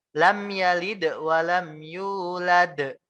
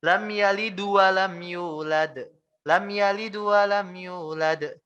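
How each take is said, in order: First: "Lam yalid wa lam yulad" slow, the d bounced with qalqalah; correct qalqalah. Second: "Lam yalid wa lam yulad" with the d turned into du, wrong; wrong dhammah. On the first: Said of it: "Ini yang benar". (qalqalah pada dal "yalid" dan "yulad") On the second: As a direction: add a u after the d in "yalid", wrongly. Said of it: "Nah, ini kan salah". (dal "yalid" dibaca seperti dhammah, salah) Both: Shown as a demonstration.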